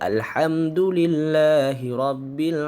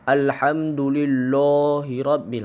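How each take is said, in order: First: The L in lillahi is thin and light. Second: The L in lillahi is thick and heavy. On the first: The speaker calls it right. "Sepatutnya baca" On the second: The speaker calls it wrong. "Itu taghliz"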